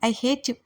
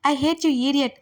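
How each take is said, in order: First: Said in the usual way. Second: Higher, louder I hate you, hate falling hard; yelling. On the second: A narrator's reading. Heroine yells at Adil, repeating louder. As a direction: let the second I hate you burst out. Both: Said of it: "గట్టి గట్టిగా అరుస్తుంటే".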